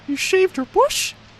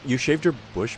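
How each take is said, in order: First: It is said in a Mickey Mouse voice. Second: It is said in his normal voice.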